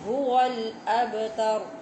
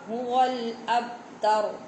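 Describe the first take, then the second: First: The b sound bounces with an audible echo. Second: The b sound is flat, without an echoing bounce. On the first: The speaker calls it right. "दुरुस्त क्या है, बा की आवाज़ आए" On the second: The speaker calls it wrong. "गलत क्या होगा"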